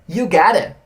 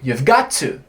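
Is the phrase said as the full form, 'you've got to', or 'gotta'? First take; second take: gotta; you've. First: 'Have' drops and 'got to' blends into 'gotta'. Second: 'Have' is contracted, but 'got to' stays separate. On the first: "é uma contração de uma expressão muito maior" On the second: "eu posso contrair um pouquinho e falar you've got to"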